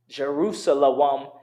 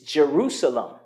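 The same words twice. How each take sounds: First: A W sound is pronounced inside the word. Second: No W sound is pronounced inside the word. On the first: The speaker calls it wrong. "would be incorrect" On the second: The speaker calls it right. "the W is silent"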